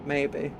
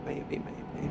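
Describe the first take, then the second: First: Said in the usual way. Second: Breathy whispered maybe maybe; whispering. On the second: Real, not acted. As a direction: whisper it to yourself teasingly. Plain then whispered repeat.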